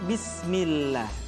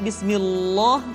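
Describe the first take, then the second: First: The L is pronounced thin and light. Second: The L is pronounced thick and heavy. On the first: The speaker calls it right. "lam kembali dibaca dengan tipis, tarkik" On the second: The speaker calls it wrong.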